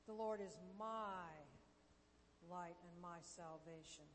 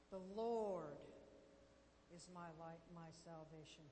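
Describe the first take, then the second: First: The stress falls on the word 'my'. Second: The stress falls on the word 'Lord'. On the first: The focus is on the listener owning the promise. "You're gaining ownership of it" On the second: The focus is on who the Lord is. "You're putting the emphasis on the Lord"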